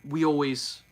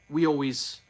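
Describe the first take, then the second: First: Vowels are dropped and the words slur together. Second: Vowels are dropped and the words slur together.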